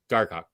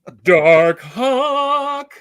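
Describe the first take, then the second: First: It is said flatly, without conviction. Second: It is said emphatically, with conviction.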